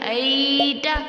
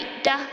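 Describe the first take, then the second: First: The 'ay' sound is stretched out long. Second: The 'ay' sound is cut off with a jerk. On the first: "आगे या लीन को खींच लेते हैं बच्चे" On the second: "या तो झटका देते हैं"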